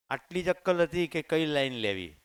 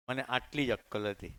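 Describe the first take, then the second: First: અક્કલ hit hard and loud, falling at the end; louder, driving the stress onto અક્કલ; emphatic repeat. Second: Said in the usual way. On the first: Shown as a demonstration. Repeating to the audience how little sense he had, stressing અક્કલ.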